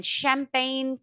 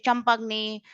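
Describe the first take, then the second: First: Champagne ending in a soft ny sound; French GN sound. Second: Champagne misread as cham-pag-nee, hard G; wrong pronunciation. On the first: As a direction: say champagne with GN melted into one ny. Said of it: "G N is near sound". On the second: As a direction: say champagne letter by letter, G apart from N. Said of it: "we don't say champagne". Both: Shown as a demonstration.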